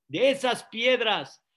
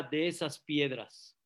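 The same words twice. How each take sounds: First: Louder, firm repeat; loud second take; emphatic repeat. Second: Low, hushed reply; quiet first take; soft answer. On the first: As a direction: drive the point home. Jeremiah repeats his answer louder. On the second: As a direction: say it softly, almost to yourself. Jeremiah's soft answer to Plato. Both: Acted.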